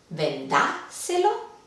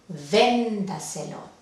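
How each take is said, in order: First: The stress is on the second syllable. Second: The stress is on the first syllable. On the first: The speaker calls it wrong. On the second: The speaker calls it right. "la intensidad va en la sílaba anterior a la antepenúltima"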